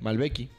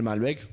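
First: It ends with an added i vowel. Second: It ends on the consonant k.

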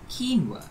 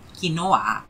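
First: It is said with a standard pronunciation. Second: It is said with a Malaysian pronunciation.

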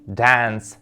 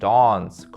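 First: The vowel is short, as in cat. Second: The vowel is a long broad A. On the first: "У США і у Північній Англії коротке Е, широкий звук, як у слові cat" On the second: "У Південній Англії ці слова вимовляються з довгим А"

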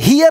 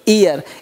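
First: The word begins with an h sound. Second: The word begins with a vowel, no h. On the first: The speaker calls it wrong. "हियर नहीं बोलेंगे" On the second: The speaker calls it right. "बोलेंगे ईयर"

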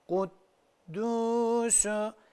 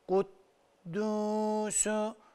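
The two takes are said the same way.

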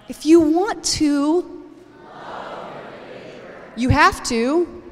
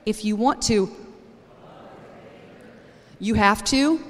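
First: It is said with strong, emphatic energy. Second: It is said with ordinary, low energy.

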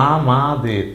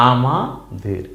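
The two takes are said the same way.

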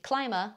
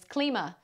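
First: The first syllable sounds like 'climb'. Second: The first syllable does not sound like 'climb'.

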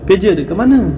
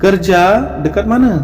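First: Regional pronunciation, with a shortened first word. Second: Standard pronunciation, with a full first word. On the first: "ওরা আঞ্চলিক ভাষায় বলবে" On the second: "আমরা যেরকম সাধারণ ভাষায় কারজা বলে থাকি"

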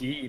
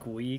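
First: The name starts with a plain g sound. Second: The name starts with a gw sound. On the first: The speaker calls it right. "It's Gee" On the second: The speaker calls it wrong. "not Gwee"

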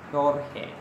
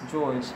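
First: The name begins with an h sound. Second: The name begins with a j sound. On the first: The speaker calls it right. "it is pronounced as Jorge" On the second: The speaker calls it wrong. "In Spanish, it is not pronounced as George"

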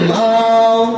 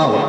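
First: The syllable is drawn out long. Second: The syllable is said short and direct. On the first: The speaker calls it wrong. "আপনি সেখানে টান দিলেন" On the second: The speaker calls it right. "সরাসরি উচ্চারণ"

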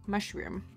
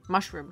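First: The word is said in a British-style accent. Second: The word is said in an American accent. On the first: "And the others say mu mushroom, mushroom" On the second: "How do Americans say mushroom? Mushroom, just mushroom"

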